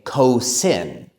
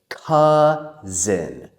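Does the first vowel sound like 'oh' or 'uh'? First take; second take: oh; uh. First: The first vowel sounds like 'oh', with an s. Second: The first vowel sounds like 'uh', with a z. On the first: The speaker calls it wrong. "we do not say cousin" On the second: The speaker calls it right. "We say cousin"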